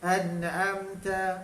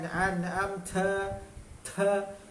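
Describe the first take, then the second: First: The final 'ta' sound is short and light. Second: The final 'ta' sound is drawn out and repeated. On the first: The speaker calls it right. "jadi an'amta" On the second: The speaker calls it wrong. "jangan an'amta ta sampai sepuluh"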